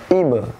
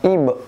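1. Konsonan terakhir dilepas dengan sentakan. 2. Konsonan terakhir sedikit ditahan. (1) "yang benar adalah ibe" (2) "bukan ibe"

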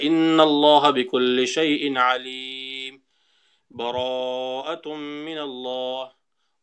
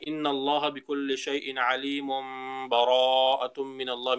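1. दोनों वाक्यांशों के बीच ठहराव है। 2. दोनों वाक्यांश बिना रुके एक साथ पढ़े जाते हैं। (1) "हम स्टॉप हो जाए" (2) "मिला लिया"

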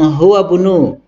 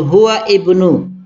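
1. Kata-katanya tersambung, dengan vokal i dihilangkan. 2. Kata-katanya terpisah, dengan vokal i pada ibnu diucapkan. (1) "kalau dibaca langsung" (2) "kalau baca sendiri-sendiri"

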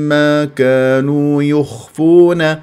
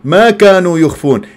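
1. كلمة ma لا يُرفع صوتها ولا تُنبَّر. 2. كلمة ma مرفوعة الصوت ومنبورة. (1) "لهم الذي لهم ما كانوا يخفون هكذا" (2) "حتى لا تقول ما كانوا يخفون ... يعني صارت نافية"

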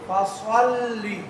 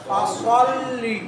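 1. s এর উচ্চারণটি মোটা ও ভারী। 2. s এর উচ্চারণটি মোটা ও ভারী।

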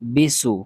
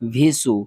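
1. সিলেবলটি b ধ্বনি দিয়ে শুরু হয়। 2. সিলেবলটি v ধ্বনি দিয়ে শুরু হয়। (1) "এগুলা উচ্চারণ হবে না" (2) "আমরা অনেকেই পড়ি ভিসু"

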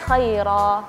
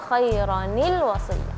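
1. Kata itu berakhir dengan -ah dan berhenti di situ. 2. Kata itu berakhir dengan -anil, lalu tersambung ke kata berikutnya. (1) "Kalau tidak disambung?" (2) "Tapi ketika disambung"

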